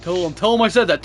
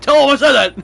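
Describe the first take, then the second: First: Insistent urging. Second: High, loud playful shout; mock-insistent yell. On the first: Pretend. Urging friend to relay message, first take. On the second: Friend urging Andy to relay a message to his father, mock yelling. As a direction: yell it as an escalating demand. Repeats the demand, escalating to a yell.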